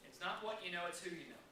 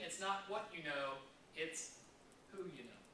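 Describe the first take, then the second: First: Said in the usual way. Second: Not what you know drawn out slowly, who you know dropping soft; slow the contrast down and land on who; stress on not and who. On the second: Shown as a demonstration. To agents about success, stressing not and who slowly.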